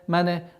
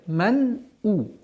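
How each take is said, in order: First: An extra vowel sound follows the n. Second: The n is held with no extra vowel. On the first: The speaker calls it wrong. "не произносилось калкаля" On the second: The speaker calls it right. "Нет, ман у"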